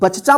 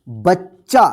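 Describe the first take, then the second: First: The ch sound is split by an extra vowel. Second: The ch sound is held doubled, with no vowel. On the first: The speaker calls it wrong. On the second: The speaker calls it right.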